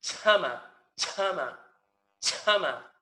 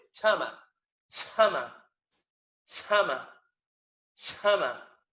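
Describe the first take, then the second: First: Loud chama with a popped ch and no puff; ch snapped off so the paper sheet stays still; chama, glottal pop on the ch; ejective ch. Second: Loud chama with a strong puff on the ch; chama, chama, breathy ch; aspirated ch. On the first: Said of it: "No vibra la hoja". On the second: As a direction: blow hard on the ch so a paper sheet moves. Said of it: "vamos a pronunciar la palabra áspero". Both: Shown as a demonstration.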